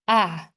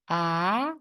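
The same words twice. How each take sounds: First: The pitch falls sharply from high to low. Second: The pitch rises from middle to high. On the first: "And how about the last one?" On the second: "And how about the second one?"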